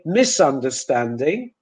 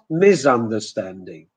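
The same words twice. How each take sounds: First: The first consonant s is hissing, not buzzing. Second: The first consonant s is buzzing like z. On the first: The speaker calls it right. "Then we say" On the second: The speaker calls it wrong.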